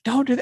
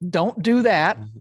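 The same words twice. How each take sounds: First: It is said in a panicked, urgent tone. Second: It is said in a calm, relaxed tone.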